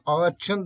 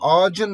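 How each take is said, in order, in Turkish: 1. Ekten önceki ünsüz sert ç sesidir. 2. Ekten önceki ünsüz yumuşak c sesidir. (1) "ağaçın demezsin" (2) "daha yumuşak olan C'ye dönüştüğünü görüyorum"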